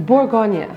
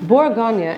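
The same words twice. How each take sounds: Both takes have the same delivery.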